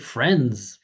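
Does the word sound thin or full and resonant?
resonant. It sounds fuller, with more chest vibration. The speaker calls it right. "You hear the more vibration"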